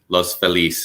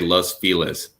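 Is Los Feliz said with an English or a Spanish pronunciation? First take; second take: Spanish; English. First: It is said with a Spanish-style pronunciation. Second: It is said with an Anglicized, local pronunciation. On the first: This follows the original Spanish. "as opposed to like Los Feliz" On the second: This is how locals in the city say it. "we say Spanish words in our own L A way wrong"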